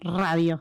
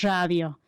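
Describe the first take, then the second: First: The R is a standard trilled R. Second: The R is assibilated, as in Corrientes.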